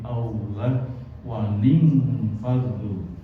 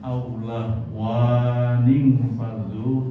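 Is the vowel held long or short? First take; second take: short; long. First: The vowel is held short. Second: The vowel is held long. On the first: The speaker calls it right. "dibaca pendek satu harokat" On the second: The speaker calls it wrong.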